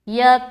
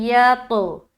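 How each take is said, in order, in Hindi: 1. "t" की आवाज़ बिना उछाल के छोटी काटी जाती है। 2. "t" की आवाज़ गूँजती हुई उछाल के साथ छोड़ी जाती है। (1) "मिलाने का काम तो हुआ लेकिन कलकला नहीं हुआ, जो कि गलत है" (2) "तो हमें यहाँ पर क्या पढ़ना है"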